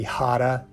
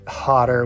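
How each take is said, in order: First: The word ends with an uh sound. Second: The word ends with an er sound. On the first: "will end them with an uh sound" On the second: "words that end in er"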